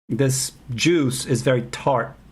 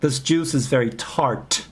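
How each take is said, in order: First: The final t is held and not released. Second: The final t is released with audible air. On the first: The speaker calls it right. "You don't release the T at the end of words" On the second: The speaker calls it wrong. "You don't say this juice is very tart"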